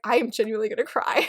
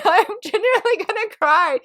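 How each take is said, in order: First: Said in the usual way. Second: High, laughing mock cry; hammed-up tearful fan; mock near-tears. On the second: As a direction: whine it up high, playing about to cry.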